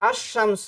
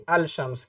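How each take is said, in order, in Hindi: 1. L, 'sh' की दोहरी आवाज़ में मिल जाता है। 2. L, 'sh' से पहले साफ़ बोला जाता है। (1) "तो अश-शम्स हम कहेंगे" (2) "ना कि अल-शम्स कहेंगे"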